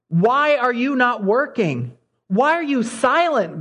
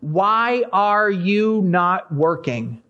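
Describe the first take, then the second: First: Anguished cry. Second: Drawn-out, very slow plea; slow lament. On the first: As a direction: cry it out, pleading upward. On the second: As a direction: stretch each word like a weary complaint. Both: Retold or imitated. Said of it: "he cries out to God and says".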